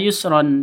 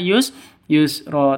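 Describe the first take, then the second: First: The word ends with an n sound. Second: The word ends with a long open vowel. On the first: The speaker calls it wrong. "jangan dibaca yusron" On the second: The speaker calls it right. "tapi dibaca yus yusro"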